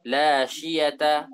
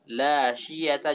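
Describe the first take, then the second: Both takes have the same delivery.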